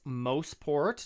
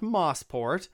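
First: The first syllable sounds like 'mo' in motor. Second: The first syllable sounds like the word 'moss'. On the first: The speaker calls it right. "yes, Mosport, ... which is a contraction of motorsport" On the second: The speaker calls it wrong. "not Mosport"

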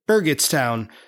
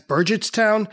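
First: The G is pronounced hard, as in go. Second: The G is pronounced soft, like a J. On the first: The speaker calls it right. "Pete accurately calls it Burgettstown, with a hard G" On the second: The speaker calls it wrong. "I incorrectly pronounced the name of the town as"

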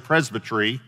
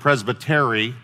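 First: The word has a British-style pronunciation. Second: The word has a Texan-style pronunciation. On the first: "sometimes I say Presbytery" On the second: "the Texas pronunciation of it"

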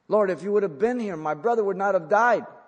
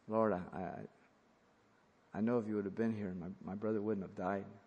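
First: It is said in an affirming, sympathetic tone. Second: It is said in a halting, reproachful tone.

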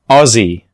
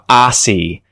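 First: Said with an Australian vowel and a Z sound. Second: Said with an American vowel and an S sound. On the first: The speaker calls it right. "but I would say this as Aussie" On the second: The speaker calls it wrong. "Americans tend to mispronounce this word all the time. They'll say something like"

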